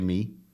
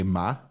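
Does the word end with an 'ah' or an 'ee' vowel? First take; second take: ee; ah. First: The word ends with a close 'ee' vowel. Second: The word ends with an open 'ah' vowel. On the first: This is how the listener claims to say it. "You don't say me" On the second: This is how the listener really says it. "As you say ma"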